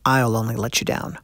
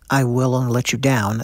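First: The contracted form 'I'll' is said. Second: The full form 'I will' is said. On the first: The speaker calls it right. "he actually sings it" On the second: The speaker calls it wrong. "That's how it shows up in print"

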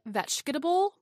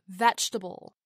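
First: The word is said with four syllables, keeping every vowel. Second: The word is said with three syllables, dropping an unstressed vowel. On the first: "As you said, vegetable becomes" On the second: "becomes vegetable"

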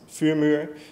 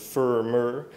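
First: The name is said with its original pronunciation. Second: The name is said with an English-speaker pronunciation.

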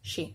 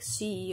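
First: The word begins with an airy sh sound. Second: The word begins with a plain s sound. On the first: The speaker calls it right. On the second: The speaker calls it wrong. "they pronounce it like an S"

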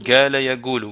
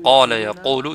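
First: The first word begins with a g sound. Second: The first word begins with a q sound. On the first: This is the dialect form. "ils disent « gala yaqulu »" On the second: This is the usual form. "Au lieu de dire « qala yaqulu »"

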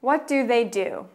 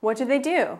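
First: It is said at a slower pace. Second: It is said at a faster pace.

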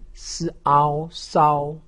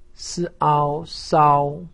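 First: The pitch stays high and level. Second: The same.

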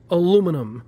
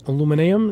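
First: The word is said with four syllables. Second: The word is said with five syllables. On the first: "regular aluminum" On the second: "how the Brits say it?"

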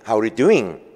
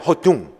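First: Every word is pronounced clearly and separately. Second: The words merge into a short, booming sound. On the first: "백인이 How are you doing?" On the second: "흑인들은요 발음이 울려요. 허둥 이렇게 발음이 돼요. 둥둥해요"

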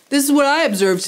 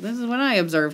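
First: It is said loudly and boldly. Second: It is said quietly, out of the side of the mouth. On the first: "like saying it louder" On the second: "saying things out of the corner of their mouths"

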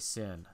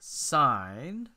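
First: The word has a short vowel, like 'sin'. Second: The word has a long vowel, like 'sign'. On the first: The speaker calls it wrong. "don't say sin" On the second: The speaker calls it right. "sine of the angle"

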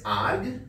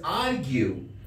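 First: The word ends abruptly with no final vowel. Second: The word ends with a final 'you' sound. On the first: The speaker calls it wrong. "this is not spoken as arg" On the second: The speaker calls it right. "this is argue"

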